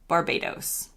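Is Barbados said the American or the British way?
American. The final syllable has an American-sounding vowel. "in the U S, we say"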